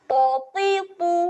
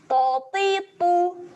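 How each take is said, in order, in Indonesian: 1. Setiap vokal diucapkan pendek dan terputus. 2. Setiap vokal diucapkan pendek dan terputus.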